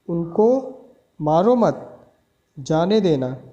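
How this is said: There is a pause right after 'mat'.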